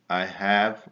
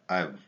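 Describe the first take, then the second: First: Both words are said in full. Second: The words are joined into one short syllable.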